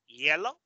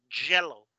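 First: YELLOW with a gliding Y, rising tune; contrasting YELLOW, no J; soft Y. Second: YELLOW said as "jello", falling tune; hard J. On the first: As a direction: say YELLOW from an ee-glide, lifting at the end. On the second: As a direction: drop onto JELLO with a struck J. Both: Shown as a demonstration. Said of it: "Saben cuál es la diferencia".

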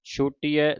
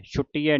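First: ਛੂਟੀ with long oo, single t. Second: ਛੁੱਟੀ with short u and doubled t. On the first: Teacher modelling it for students, ਛੂਟੀ with long oo. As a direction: lengthen the first vowel of ਛੂਟੀ. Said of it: "ਦਲੈਂਕੜਾਂ ਦੇ ਨਾਲ". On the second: Teacher showing students the mistake, ਛੁੱਟੀ with short u. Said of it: "ਛੁੱਟੀ ਹੈ ਨਹੀਂ ਕਹਿ ਦੇਣਾ". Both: Shown as a demonstration.

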